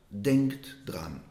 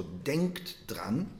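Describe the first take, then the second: First: Said in the usual way. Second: Slow emphatic repeat. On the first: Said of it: "So, denkt dran". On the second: Shown as a demonstration. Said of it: "Noch einmal".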